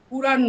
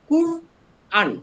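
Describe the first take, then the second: First: The word is said as one joined unit. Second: The word is split into two parts. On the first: The speaker calls it wrong. "কুরআন নয়" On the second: The speaker calls it right. "Hyphen দিয়ে আন"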